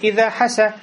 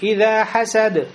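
First: The final d sound is dropped entirely. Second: The final d sound is clearly released. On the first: The word becomes a different verb. The speaker calls it wrong. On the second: The word means envied. The speaker calls it right.

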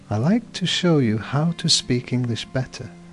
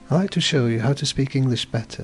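First: It is said more slowly. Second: It is said at a normal pace.

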